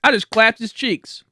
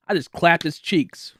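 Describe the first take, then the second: First: "I just clapped his cheeks" pitched up and slowed; slow, raised boastful retelling; higher emphatic repeat. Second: Said in the usual way. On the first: Retold or imitated. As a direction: punch the repeat for the joke.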